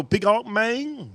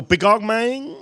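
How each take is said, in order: First: Higher, slow and drawn out; slow imitation of neighbor. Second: Imitating neighbor. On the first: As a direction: stretch it lazily in the neighbor's voice. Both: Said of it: "He go".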